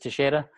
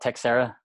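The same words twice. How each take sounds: First: The name is said with Portuguese pronunciation. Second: The name is said with American English pronunciation. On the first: This is the original form of the name. "in Portuguese is Teixeira" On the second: This is how most people locally say the name. "most people in America, where I'm at, they call it Teixeira"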